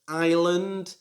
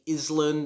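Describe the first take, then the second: First: The S sound is silent. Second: The S sound is clearly pronounced. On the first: The speaker calls it right. "the S is silent" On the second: The speaker calls it wrong. "don't say Island"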